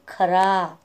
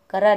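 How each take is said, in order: First: खरा with an aspirated kh, breathy k then ara; correct take. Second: करा with a plain unaspirated k, said as kara; wrong take. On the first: Teacher corrects the students' reading, खरा with aspirated kh. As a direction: say खरा with a clear puff on kh. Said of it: "खरा मतलब सच्चा". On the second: Teacher shows students the wrong reading, करा said with plain k. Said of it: "ये करा नहीं रहता है". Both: Shown as a demonstration.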